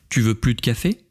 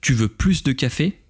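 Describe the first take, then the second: First: The s at the end of plus is silent. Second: The s at the end of plus is pronounced. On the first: The person is asked whether they want no more coffee. "c'est non, c'est terminé, je n'en veux plus" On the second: The person is asked whether they want more coffee. "c'est j'en veux plus, j'en veux encore, j'en veux davantage"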